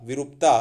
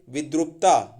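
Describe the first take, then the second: First: विरूपता without the D, loud; correct form विरूपता. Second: विद्रुपता with DR in the middle; wrong form विद्रुपता. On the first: Teacher corrects विद्रुपता, loud correct form. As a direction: say विरूपता, vi-roop-taa. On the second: Teacher shows the next error, mistaken form. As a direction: say विद्रुपता, vid-rup-taa. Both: Shown as a demonstration. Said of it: "उसके बाद में देखिए".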